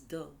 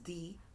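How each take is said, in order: First: The vowel is a short, weak 'uh' sound. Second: The vowel is a long 'ee' sound. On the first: The next word starts with a consonant sound. "when it is used before words that start with a consonant sound" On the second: The next word starts with a vowel sound. "when it is used before words that start with a vowel sound"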